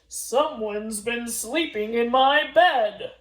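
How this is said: It is said in a deep, big voice.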